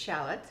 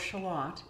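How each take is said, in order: First: It is said in a non-British way. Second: It is said in a British way.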